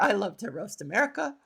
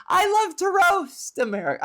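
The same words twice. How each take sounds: First: Said in the usual way. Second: High, loud, exaggerated glee; gleeful crowing. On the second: Comedian confessing she loves roasting America, gleeful high crow. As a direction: belt it out with mock delight.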